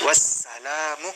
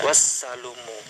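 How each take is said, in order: First: The vowel after the 'l' is 'a'. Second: The vowel after the 'l' is 'u'. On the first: This is the accepted reading of the verse. The speaker calls it right. "tapi wassalamu" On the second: This is how the manuscript's vowel mark reads. The speaker calls it wrong. "bacaan yang benar adalah sebenarnya bukan wassalumu"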